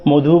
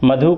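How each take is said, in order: First: The first vowel is said with rounded lips. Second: The first vowel is plain and unrounded.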